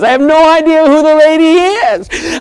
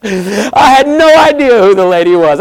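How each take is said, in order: First: "lady" lifted higher with emphasis; stressed restatement. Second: Said in the usual way. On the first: Shown as a demonstration. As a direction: stress "lady" in wonder, pitch raised.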